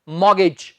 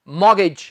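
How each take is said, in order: Both takes have the same delivery.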